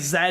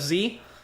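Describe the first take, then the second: First: The letter is said the British way, as zed. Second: The letter is said the American way, as zee.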